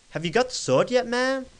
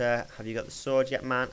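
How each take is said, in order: First: Higher, louder, odd American character voice; game character calling out in a dubious American accent; put-on American accent. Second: Said in the usual way. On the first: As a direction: ham up a strange American accent, pitched right up. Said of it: "I'm changing my voice. ... is it American?". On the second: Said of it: "I'm changing my voice".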